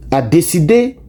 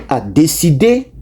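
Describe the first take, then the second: No difference in how they are said.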